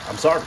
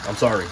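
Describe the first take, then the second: First: Higher-pitched playful apology; mock apology. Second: Said in the usual way. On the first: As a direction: repeat a mock sorry in a raised pitch. Repeats mock apology to Italy.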